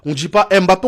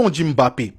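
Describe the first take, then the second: First: Said in the usual way. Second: Mbappé with a hummed M before BAPPÉ; corrected pronunciation. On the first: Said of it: "c'est pas tout le monde qui arrive à le faire". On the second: Retold or imitated. Fans correcting the YouTuber on a name, hummed-M Mbappé. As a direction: lower "Mbappé", humming the opening M. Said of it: "le son hum avant Mbappé".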